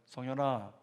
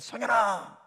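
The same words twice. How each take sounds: First: The name is called in a normal, soft voice. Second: The name is shouted in a loud voice.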